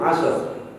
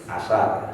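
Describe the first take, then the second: First: It ends in two consonants with no vowel. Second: A helper vowel separates the last two consonants. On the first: "Asar juga begitu" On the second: "sehingga bunyinya menjadi"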